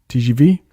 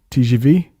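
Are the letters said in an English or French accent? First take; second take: French; French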